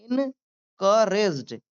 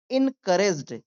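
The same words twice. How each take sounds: First: "encouraged" very slowly, in, ka, rejd; syllable by syllable. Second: Said in the usual way. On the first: Shown as a demonstration. Teacher demonstrating to learners, syllable by syllable. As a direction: split "encouraged" into drawn-out parts. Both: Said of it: "मेरे साथ भी बोलिए".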